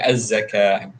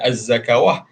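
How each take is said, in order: First: The word ends without a 'w' sound. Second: The word ends with an added 'w' syllable. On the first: The speaker calls it right. "Dengan az-zakah" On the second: The speaker calls it wrong. "bukan az-zakawah"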